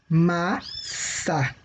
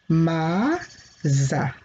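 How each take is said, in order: First: The middle consonant is a hissing S sound. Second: The middle consonant is a buzzing Z sound. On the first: The speaker calls it right. "ele fica com som de S" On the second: The speaker calls it wrong. "Mas se eu colocar um S, como é que fica essa palavra aqui?"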